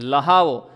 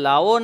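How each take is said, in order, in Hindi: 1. बीच में 'h' की ध्वनि उच्चारित होती है। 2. बीच में 'h' की ध्वनि छूटती है। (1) "પણ લહાવો" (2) "લાવો નહીં"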